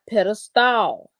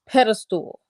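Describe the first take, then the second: First: The last syllable is a full 'stall'. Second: The last syllable is reduced, like 'stul'. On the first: The speaker calls it wrong. "not pedestal. A stall is something that you go into" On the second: The speaker calls it right. "it is pedestal"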